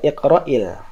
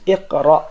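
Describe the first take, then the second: First: The word ends with an added i vowel. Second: The word ends on a bare consonant. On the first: The word is joined to the next word. "kalau dia wasol" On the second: The word is cut off from what follows. "Tapi jika diputus"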